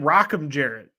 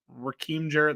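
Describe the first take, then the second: First: The first name sounds like Rockham. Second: The first name sounds like Raheem. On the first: This is how others kept saying the name. "they kept calling him Rockham Jarrett" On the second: This is how the speaker expected the name to sound. "I thought it was Raheem Jarrett the entire time"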